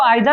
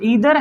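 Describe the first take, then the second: First: The first vowel sounds like 'eye'. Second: The first vowel sounds like 'ee'.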